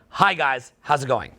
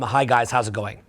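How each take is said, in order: First: It is said lively but controlled and stable. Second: It is said flatly, with narrow range.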